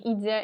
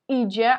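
First: The middle consonant is a plain 'd' sound. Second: The middle consonant is a hard 'dzh' sound. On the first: The speaker calls it wrong. "а не «иде»" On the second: The speaker calls it right. "то есть максимально такой твердый"

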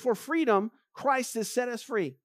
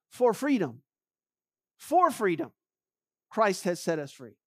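First: It is read at normal speed. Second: It is read slowly.

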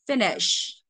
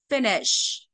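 First: The stress is on the first syllable. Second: The same.

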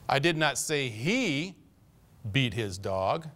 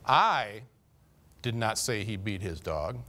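First: The word 'he' is stressed. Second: The word 'I' is stressed. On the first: The speaker was talking about someone else, not him. "That fellow over there, he beats his dog all the time, but I didn't say he did" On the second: Someone else may have said it, but not the speaker. "Carl might have said he beat his dog, but I never said that"

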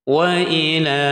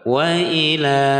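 Both takes have the same delivery.

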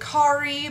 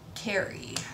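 First: The name is not said like 'Carrie'. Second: The name is said like 'Carrie'. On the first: The speaker calls it wrong. "A lot of people pronounce it Kari" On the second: The speaker calls it right. "but it is Kari, like Sex and the City Kari"

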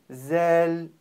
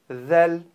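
First: The consonant is made as a hissing z sound. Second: The consonant is made with the tongue between the teeth. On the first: The speaker calls it wrong. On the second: The speaker calls it right.

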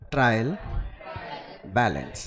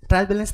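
First: There is a pause between the two words. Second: The two words run together without a pause. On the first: The speaker calls it right. "Pause लेके बोलिए" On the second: The speaker calls it wrong. "एक साथ मत बोलिए"

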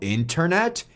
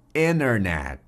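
First: The first T after N is clearly pronounced. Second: The first T after N is left out. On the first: "se você falou internet, esse vídeo é para você" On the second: "nós vamos simplesmente ignorar esse primeiro T"

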